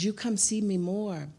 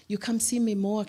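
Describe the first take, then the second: First: Lightly voiced Asian lady, a bit higher; mild Asian accent, pleading gently; imitating Asian accent. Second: Higher, lightly voiced Asian lady repeating herself; a hint of an Asian accent, insisting; imitating Asian accent. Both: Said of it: "She's Asian".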